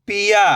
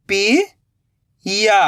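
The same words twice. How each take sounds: First: "पिया" joined in one go, no gap; blended word. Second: "पिया" slowly split, rising "pi", long pause, "ya"; split into syllables. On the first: Teacher giving learners the result, "पिया" blended. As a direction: say "पिया" whole, short i. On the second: Teacher building the word for learners, "पिया" in slow pieces. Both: Shown as a demonstration. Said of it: "तो मिलके बन जाएगा".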